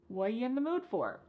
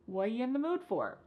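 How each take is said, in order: First: 'What you' is squeezed to a very short blur. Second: 'What you' is squeezed to a very short blur.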